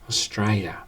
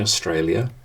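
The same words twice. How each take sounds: First: Some sounds are dropped or blurred together. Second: Every syllable is pronounced clearly and fully. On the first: The speaker calls it wrong. "they say Australia or Austra, and it drives me nuts" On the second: The speaker calls it right. "don't say Australia"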